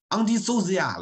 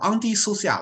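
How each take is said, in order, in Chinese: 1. o 前面的辅音是嗡嗡的 'z'。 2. o 前面的辅音是嘶嘶的 's'。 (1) "把social 了前面那个s 读成zo" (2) "在这种复合词当中，它还读s"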